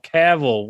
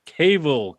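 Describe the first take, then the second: First: "Cavill" with a short A, like CAV-ill; pronunciation attempt. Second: "Cavill" with a long A, like CAY-vill; pronunciation attempt. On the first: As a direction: say "Cavill" so the first syllable rhymes with "have". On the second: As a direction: say "Cavill" so the first syllable rhymes with "cave". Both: Shown as a demonstration. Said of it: "How do you, how".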